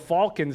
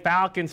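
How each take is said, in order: First: The word has a non-American pronunciation. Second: The word has an American pronunciation. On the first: The speaker calls it wrong. "I'm pronouncing the team's name wrong" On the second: The speaker calls it right. "trying to say the American way"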